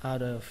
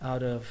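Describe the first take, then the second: Both takes have the same delivery.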